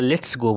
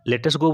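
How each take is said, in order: First: It is said as one contracted word, let's. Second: It is said as two full words, let us. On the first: "लेटस go बोलिए या लेट्स go बोलिए, बात बराबर है" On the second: "लेटस go बोलिए या लेट्स go बोलिए, बात बराबर है"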